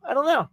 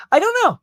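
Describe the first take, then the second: First: Said in the usual way. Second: Sudden high exasperated I don't know; exasperated high cry. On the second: Real, not acted. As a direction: blurt it out high and loud. Exasperated repeated answer.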